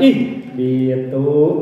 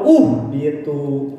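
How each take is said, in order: First: The word begins with an i vowel. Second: The word begins with a u vowel. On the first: The speaker calls it right. "ih biatu geningannya gitu" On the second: The speaker calls it wrong. "atau uh biatu"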